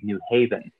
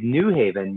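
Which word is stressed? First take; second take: Haven; New. First: The stress falls on the word Haven. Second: The stress falls on the word New. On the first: The speaker calls it right. "the emphasis is on Haven" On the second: The speaker calls it wrong. "You don't say New Haven"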